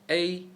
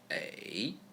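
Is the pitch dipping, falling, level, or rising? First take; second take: level; dipping. First: The pitch stays high and level. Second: The pitch dips low, then rises.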